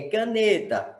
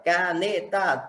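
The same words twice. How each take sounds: First: Said in the usual way. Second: "caneta" split as ca, ne, ta; syllable by syllable. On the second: Shown as a demonstration. Teacher counting syllables for students, "caneta" syllable by syllable. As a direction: break "caneta" into three separate beats. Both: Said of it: "três sílabas".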